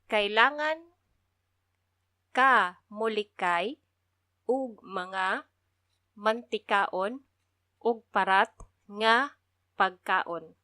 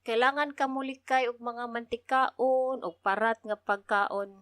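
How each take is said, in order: First: The sentence is spoken slowly and carefully. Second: The sentence is spoken at a natural pace.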